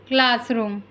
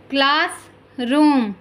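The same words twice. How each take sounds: First: Said in the usual way. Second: Slow, stretched classroom; slow careful model word. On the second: Shown as a demonstration. Teacher modelling classroom slowly for listening pupils. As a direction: draw out classroom for the class. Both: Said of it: "listen to your teacher say the following words".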